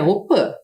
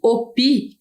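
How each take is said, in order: First: The word ends in a nasal vowel. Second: The word ends in a plain oral vowel. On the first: The speaker calls it right. "a pronúncia correta é Opã" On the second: The speaker calls it wrong. "Embora a gente escreva aqui Opi"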